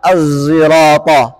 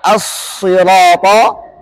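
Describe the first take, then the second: First: The word is said with a z-like sound. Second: The word is said with a plain s sound.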